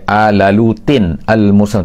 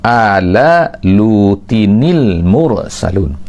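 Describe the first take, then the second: First: Lutin and al are said separately, without linking. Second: Lutin joins the next word with an added i sound. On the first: The speaker calls it wrong. "dia tak boleh baca" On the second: The speaker calls it right. "Jadi kita akan baca"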